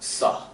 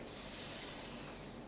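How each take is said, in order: First: An extra ah vowel follows the consonant. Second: The bare consonant is said with no vowel. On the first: The speaker calls it wrong. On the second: The speaker calls it right.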